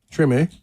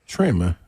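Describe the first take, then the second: First: "Treme" ending in an A sound; final E as AY. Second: "Treme" ending in an unstressed uh; final E as uh. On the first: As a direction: say "Treme" as truh-MAY. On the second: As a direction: say "Treme" as TREM-uh, without the A sound. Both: Real, not acted. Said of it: "is the A sound for the E".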